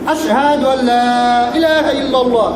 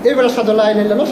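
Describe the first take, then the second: First: The vowel of 'la' is drawn out long. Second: The vowel of 'la' is short and rushed. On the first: There is no god except God. The speaker calls it right. "যখন এখানে টান দিয়ে পড়বেন" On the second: There is surely a god besides God. The speaker calls it wrong. "এখানে টান কেপি দিই দিই না, ... দ্রুত পড়ি"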